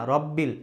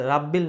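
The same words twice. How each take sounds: First: "রব্বিল" with rounded ro; corrected robbil. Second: "রাব্বিল" with open raa; wrong rabbil. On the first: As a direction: say "রব্বিল" with a full o in the first syllable. ("রব্বিল" মোটা র দিয়ে, আ-কার ছাড়া) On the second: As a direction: say "রাব্বিল" with aa in the first syllable. ("রাব্বিল" আ-কার দিয়ে, ভুল উচ্চারণ) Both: Shown as a demonstration. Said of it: "তাহলে রাব্বিল না".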